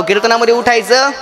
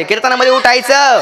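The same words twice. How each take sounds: First: Said in the usual way. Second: Higher-pitched call to the crowd. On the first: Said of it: "मोठ्याने बोला". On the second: Shown as a demonstration. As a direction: call it out so the whole tent answers. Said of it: "मोठ्याने बोला, मंडपाला आवाज गेला पाहिजे".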